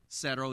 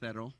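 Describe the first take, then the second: First: The c is said like an s sound. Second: The c is said like a th sound. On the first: "Instead of" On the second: "Castilian Spanish, they kind of have a lisp"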